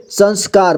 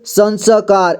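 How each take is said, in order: First: Said in the usual way. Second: संस्कार misread as san-sa-kaar; mistaken reading demo. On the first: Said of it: "पढ़ेंगे". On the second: Shown as a demonstration. Teacher warning learners about half letters, संस्कार misread as san-sa-kaar. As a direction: put a full vowel after the half s in संस्कार. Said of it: "ऐसे नहीं पढ़ेंगे".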